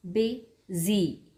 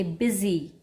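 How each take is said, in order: First: "busy" split in two with a pause mid-word; syllable break. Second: Said in the usual way. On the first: Shown as a demonstration. Teacher showing children the syllables, "busy" broken in two. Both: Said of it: "then a slight pause and then Z".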